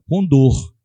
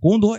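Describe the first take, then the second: First: The word is said slowly, syllable by syllable. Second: The word is said at normal speed. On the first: It sounds like saying 'with pain'. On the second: It names the bird of prey.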